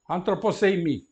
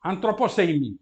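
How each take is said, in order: First: Antroposeimi run together as one word; read as one word. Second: Antroposeimi said smoothly as a single word; read as one word again. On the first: Teacher modelling Antroposeimi as one word for students. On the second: Teacher repeating Antroposeimi for the class. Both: Shown as a demonstration. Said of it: "eu disse".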